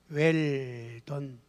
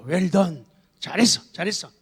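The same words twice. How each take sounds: First: Well done read stiffly as "wel ton" in Korean sounds; careful "Well done" from written Korean spelling; spelled-out English. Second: Praising cheer. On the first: Father reading English praise his kids wrote out, stiffly pronounced. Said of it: "여기다가 발음 좀 적어봐". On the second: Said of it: "영어의 감탄사를 사용하라". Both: Shown as a demonstration.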